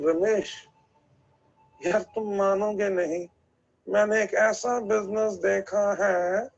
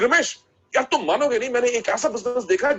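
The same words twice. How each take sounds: First: It is said flatly without excitement. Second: It is said with excitement and energy.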